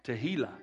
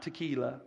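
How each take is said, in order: First: "tehillah" with a breathed h, no k; tehillah, not tequila. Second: "tequila" with a k sound in the middle; not tequila. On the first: Preacher correcting the word for the congregation, "tehillah" with an h. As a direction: say "tehillah" as teh-HEE-lah. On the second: Preacher showing the congregation the mistaken word, "tequila" with a k. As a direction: say "tequila" with a hard k before "ee". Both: Shown as a demonstration. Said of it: "Not tequila".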